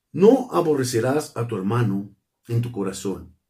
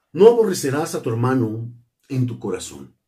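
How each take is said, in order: The two takes are said the same way.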